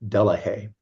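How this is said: The name is said the English way. "the English pronunciation of it is"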